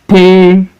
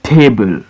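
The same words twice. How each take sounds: First: "Table" in two drawn-out halves, high first, long pause between; "Table" split apart before blending; slow syllables. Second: Said in the usual way. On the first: Shown as a demonstration. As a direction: read "Table" slowly, syllable by syllable. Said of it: "I will read the words slowly". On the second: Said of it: "So how do you read it?".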